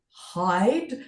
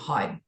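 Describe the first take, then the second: First: The word is said slowly with careful articulation. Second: The word is said quickly in a relaxed way. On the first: This way the voice assistant understands it. The speaker calls it right. "I had to hide" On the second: This way the voice assistant gets it wrong. The speaker calls it wrong. "rather than just saying hide"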